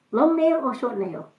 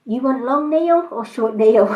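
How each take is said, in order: First: Higher mock Chinese accent, held-back laugh; light Chinese accent impression, a little softer. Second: Mock Chinese accent, breaking into a laugh; laughing Chinese accent impression. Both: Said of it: "lovely little Chinese woman".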